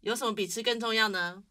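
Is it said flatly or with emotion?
flatly. It is said flatly, without feeling.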